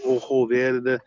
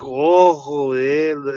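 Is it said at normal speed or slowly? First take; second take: normal; slowly. First: It is said at normal speed. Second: It is said slowly and deliberately.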